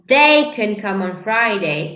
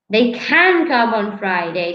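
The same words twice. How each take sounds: First: The stress falls on the word they. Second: The stress falls on the word can. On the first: A specific person can come. "if I stress they, it means I'm talking about a specific person" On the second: It is possible for them to come. "the stress is on the of the possibility"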